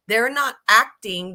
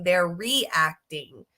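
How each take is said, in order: First: "not" punched louder and drawn out; slow deliberate stress on "not". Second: Slow deliberate stress on "they're reacting". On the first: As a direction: hit the word "not" hard, slow. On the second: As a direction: draw out "they're reacting" very slowly. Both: Real, not acted. Contrasting acting vs reacting.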